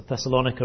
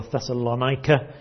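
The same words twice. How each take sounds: First: Thessalonica said the first of two ways; first pronunciation variant. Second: Thessalonica said the other way; alternative pronunciation. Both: Shown as a demonstration. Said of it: "how you would like to pronounce it".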